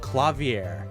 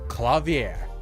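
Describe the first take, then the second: First: The last syllable has ordinary, lighter stress. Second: The last syllable has stronger stress.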